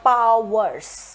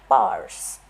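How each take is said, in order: First: The word is said with two syllables. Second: The word is said with one syllable. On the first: The speaker calls it wrong. "It's not powers. We don't pronounce it that way" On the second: The speaker calls it right. "powers is one syllable according to native English speakers"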